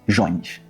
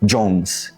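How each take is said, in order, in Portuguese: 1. O nome tem sotaque do português brasileiro. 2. O nome tem sotaque do inglês americano. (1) "Embora a pronúncia aqui tenha perdido qualquer nobreza imperial" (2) "Um estadunidense"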